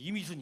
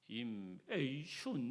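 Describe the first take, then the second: First: The syllables run together into 'i-mi-sun'. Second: The name is said with a foreign accent. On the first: An excited speaker cannot say the name properly. "제 이름을 제대로 발음을 못해요" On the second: Western speakers cannot say the name properly. "이상하게 발음하니까"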